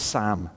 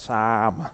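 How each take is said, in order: First: The vowel is short and flat, like Sam. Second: The vowel is long with the mouth wide open. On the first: This is the speaker's own way of saying it. "it's Sam. Like Sam with a little S" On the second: This is how Australians say it. "You have to open your mouth wide and go"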